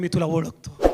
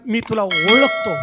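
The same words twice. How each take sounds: First: Low, soft quoted word from God; quiet assurance. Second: Slow, firm weight on ओळखतो; emphatic repeat. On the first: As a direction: say it softly and low. First take, said quietly. (हळू, खालच्या आवाजात) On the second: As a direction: stress and stretch ओळखतो. मी म्हटलं. (ओळखतो वर जोर देऊन, लांबवून) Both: Acted.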